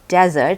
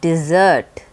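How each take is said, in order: First: The stress is on the first syllable. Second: The stress is on the second syllable. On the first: A dry, sandy region. The speaker calls it wrong. "It is not pronounced desert" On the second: To abandon someone. The speaker calls it right. "it's pronounced desert"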